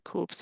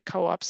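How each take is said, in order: First: The word is said as one syllable. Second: The word is said as two syllables. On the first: This is how the local community said it. "they say coops" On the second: This is the usual way most people say it. "they don't say co-ops"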